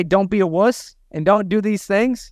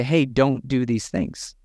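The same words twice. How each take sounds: First: A half-playful yell, pitched up a bit; lightly yelling at someone's staff; mock yell. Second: Calmly coaching the team instead of yelling; calm advice. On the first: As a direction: bark the order at the team, half in jest. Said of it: "I can yell at your team". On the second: Retold or imitated. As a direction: say it as a friendly talk, not a yell. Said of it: "we're not gonna yell at your team".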